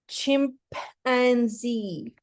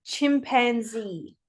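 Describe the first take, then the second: First: CHIMPANZEE said slowly, in separate chunks; broken into syllables. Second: CHIMPANZEE as one joined-up word; blended together. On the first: Pupil sounding out for the teacher, syllable by syllable. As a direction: break CHIMPANZEE into chim, pan, zee with gaps. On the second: Pupil blending it all together for the teacher, joined-up. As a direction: run CHIMPANZEE together with no gaps between syllables. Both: Shown as a demonstration. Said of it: "And all together?".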